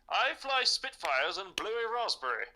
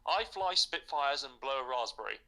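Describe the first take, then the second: First: It is said in a put-on British accent. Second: It is said in the speaker's normal accent.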